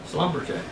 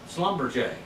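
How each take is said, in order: The two takes are said the same way.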